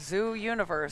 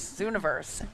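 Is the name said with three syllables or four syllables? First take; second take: four syllables; three syllables. First: The name is said as zoo plus universe. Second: The name is said as one blended word. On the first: The speaker calls it wrong. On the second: The speaker calls it right.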